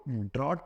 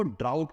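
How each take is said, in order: First: "ड्रॉट" with one open "aw" vowel; pronunciation contrast. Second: "ड्राउट" with a gliding "au" vowel; pronunciation contrast. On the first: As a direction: say "ड्रॉट" as drawt, without a glide. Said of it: "इसको ड्रॉट पढ़ते हैं". ("ड्रॉट" में खुला "ऑ" स्वर) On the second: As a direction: say "ड्राउट" as draa-ut, rhyming with "out". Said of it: "इसको ड्राउट पढ़ते हैं". ("ड्राउट" में "आउ" स्वर) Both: Shown as a demonstration.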